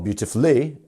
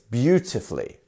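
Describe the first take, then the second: First: The stress falls on a later syllable. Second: The stress falls on the first syllable. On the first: The speaker calls it wrong. "we don't have" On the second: The speaker calls it right. "It's beautifully"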